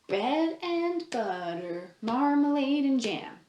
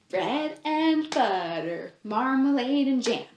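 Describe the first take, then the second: Both takes have the same delivery.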